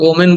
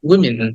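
First: The first syllable sounds like 'o'. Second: The first syllable sounds like 'wi', short i. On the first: The speaker calls it wrong. "আমরা এটাকে ওমেন বলি" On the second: The speaker calls it right. "উইটাকে short ই বলতে হবে"

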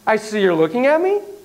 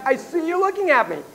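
First: The voice rises at the end like a question. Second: The voice falls at the end like a statement. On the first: It is secretly asking a question. The speaker calls it wrong. "It's just in your tone" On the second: It is a plain observation, not a question. The speaker calls it right. "just leave it at"

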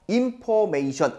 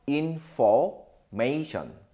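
First: The f sound is not clearly pronounced. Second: The f sound is clearly pronounced. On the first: The speaker calls it wrong. "information 아니에요" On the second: The speaker calls it right. "F 발음 살려서"

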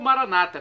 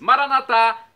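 First: The stress falls on the second-to-last syllable. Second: The stress falls on the last syllable. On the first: This is how Protestants say it. "como dizem nossos irmãos separados, os evangélicos ou protestantes... com a tônica na penúltima sílaba" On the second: This is how Catholics say it. "os católicos com a tônica na última"

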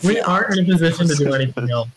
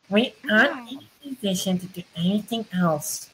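First: The voice is the speaker's ordinary voice. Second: The voice is put on and high-pitched. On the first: "just don't do your regular voice" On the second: "That was just high-pitched"

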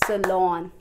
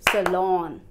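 No difference in how they are said.

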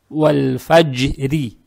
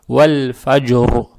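First: The word ends on a soft r plus i vowel. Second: The word ends on a hard r with no vowel. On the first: The reader continues to the next verse. "здесь уже РО надо будет читать мягко" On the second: The reader stops after this word. "РО читается твердо"

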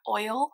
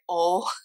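First: The word is said in a non-Southern accent. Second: The word is said in a Southern accent. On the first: "not oil" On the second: "In the South, we say oil"

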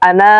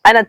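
First: The vowel in the word is drawn out. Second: The vowel in the word is kept short. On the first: The speaker calls it wrong. "আমরা অনেকে ভুল করে বলি আনা তিলমিজুন" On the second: The speaker calls it right. "এখানে এই আনায় টান হবে না।"

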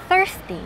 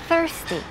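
No difference in how they are said.

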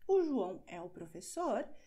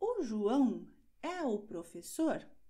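First: It has the falling tune of a statement. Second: It has the rising tune of a question.

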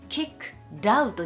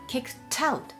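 First: The two words are said separately. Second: The two words run together smoothly. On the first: The speaker calls it wrong. "kicked out にはならずに" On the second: The speaker calls it right. "kicked out というふうにくっついていきます"

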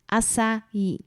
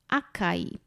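First: The c is pronounced as an s sound. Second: The c is pronounced as a k sound. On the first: The speaker calls it right. "czyta się to właśnie C jako literkę S" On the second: The speaker calls it wrong. "niektóre osoby czytają jagody açaí, acai"

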